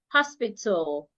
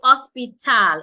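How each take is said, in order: First: The final syllable has a reduced, unheard vowel. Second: The final syllable has a full 'a' vowel. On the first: The speaker calls it right. "The A that would not be heard, so it becomes t, l, tul" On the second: The speaker calls it wrong. "I will not say hospital. It won't be t, al, tal"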